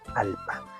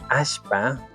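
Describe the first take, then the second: First: The middle consonant is a plain L sound. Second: The middle consonant is an SH sound. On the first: This is the northern highland pronunciation. "la dialéctica que nosotros hablamos acá en la Sierra Norte" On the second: This is the central highland pronunciation. "pero lo dicen así"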